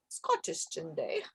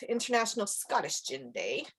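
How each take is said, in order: First: Quiet, breathy Scottish accent attempt; a quick try at a Scottish accent. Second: Said in the usual way. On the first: Shown as a demonstration. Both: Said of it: "That was my Scottish".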